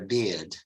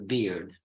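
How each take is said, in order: First: It is said in a British accent. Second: It is said in an American accent. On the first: "but in British English, I have a beard" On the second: "in American English, it's the beard"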